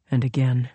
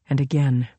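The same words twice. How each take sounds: The two takes are said the same way.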